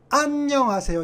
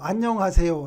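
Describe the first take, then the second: First: The stress is on the first syllable. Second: All five syllables carry equal stress. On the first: This is how a foreign speaker says it. The speaker calls it wrong. "압음절에 강세가 있다고 그랬으니까" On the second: This is how native Korean speakers say it. The speaker calls it right. "한국어로는 강세가 똑같아요"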